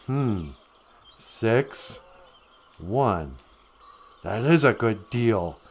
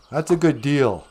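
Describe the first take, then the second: First: Low, softer thinking aloud with pauses; mock-serious deliberation; pondering. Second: Brisk, assured selling line; confident dealmaker's clincher; persuasive goblin. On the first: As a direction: weigh it up word by word, then be won over. Jack slowly weighs up the offer. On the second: Acted. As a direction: push the bargain on a hesitant buyer. Goblin urges the trade on Jack.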